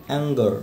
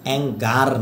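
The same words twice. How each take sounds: First: "অ্যাঙ্গার" ending in a weak schwa, like "ang-guh"; corrected demo of "অ্যাঙ্গার" with a swallowed final a; barely sounded schwa. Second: "অ্যাঙ্গার" with an open "gaar" ending; wrong-way demo of "অ্যাঙ্গার", ending in a full "aar"; full final "ar". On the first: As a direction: stop the last vowel of "অ্যাঙ্গার" short. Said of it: "আ দিয়ে আপনি stop করে ফেলবেন". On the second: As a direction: sound the a and r of "অ্যাঙ্গার" fully. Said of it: "না". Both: Shown as a demonstration.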